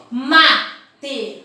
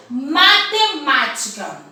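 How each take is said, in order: First: Matemática said slowly in five beats, ma-te-má-ti-ca; syllable demo. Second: Matemática slowed and split, ma-te-má-ti-ca; syllable demo. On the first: Teacher counting out five syllables, slow. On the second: Teacher splitting a long word for the class. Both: Shown as a demonstration. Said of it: "Prestem atenção em quantas vezes".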